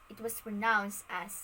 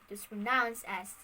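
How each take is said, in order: The two takes are said the same way.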